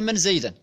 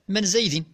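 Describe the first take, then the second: First: The name ends in the vowel a. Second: The name ends in the vowel i. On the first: This echoes a question about seeing someone. "بالنصب" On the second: This echoes a question about passing by someone. "بالجر"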